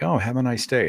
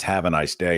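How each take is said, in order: First: Mock-sweet, sarcastic have a nice day; sarcastic mug voice. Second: Said in the usual way. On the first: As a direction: say it like the hidden middle finger. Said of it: "it's like". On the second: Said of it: "it says".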